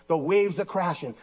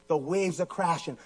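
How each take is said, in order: Both takes have the same delivery.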